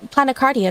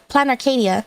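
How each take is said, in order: First: The name ends with a 'cardia' sound. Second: The name ends with an 'arcadia' sound. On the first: The speaker calls it wrong. "I said Planicardia, right? ... I pronounced that part incorrectly" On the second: The speaker calls it right. "it should be yeah, Planet Ar- Planarcadia"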